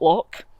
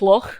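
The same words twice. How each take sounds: First: The word ends in a hard 'k' sound. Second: The word ends in a soft, throaty 'ch' sound. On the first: The speaker calls it wrong. "not Loch" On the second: The speaker calls it right. "it's Loch"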